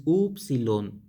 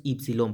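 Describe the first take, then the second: First: "upsilon" with an opening oo sound; ancient Greek pronunciation. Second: "ipsilon" with an opening ee sound; modern Greek pronunciation. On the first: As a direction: say "upsilon" as OOP-see-lon. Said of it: "en el griego antiguo es upsilon". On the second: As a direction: say "ipsilon" as EEP-see-lon. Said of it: "en el griego moderno es ipsilon". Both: Shown as a demonstration.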